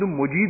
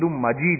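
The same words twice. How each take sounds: First: The first vowel is u, as in mujeed. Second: The first vowel is a, as in majeed. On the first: The speaker calls it wrong. "انک حمید مجید نہیں ہے" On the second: The speaker calls it right. "بلکہ انک حمید مجید ہے, میم کے اوپر زبر ہے"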